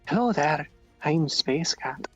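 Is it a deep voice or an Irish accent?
Irish accent. It is said in an Irish accent.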